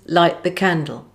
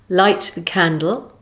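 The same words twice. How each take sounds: First: The final T is dropped with a glottal stop. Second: The final T is fully pronounced.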